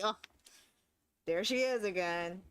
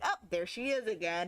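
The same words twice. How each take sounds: First: It sounds annoyed and fed up. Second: It sounds pleased and happy.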